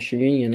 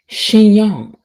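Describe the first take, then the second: First: The word ends with a 'grin' sound. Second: The word ends with a 'yon' sound. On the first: The speaker calls it wrong. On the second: The speaker calls it right.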